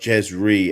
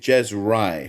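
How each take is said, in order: First: The second syllable rhymes with 'see'. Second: The second syllable rhymes with 'eye'. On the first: The speaker calls it wrong. "not Jez Ree, as many people think" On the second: The speaker calls it right. "the name is Jez Rye"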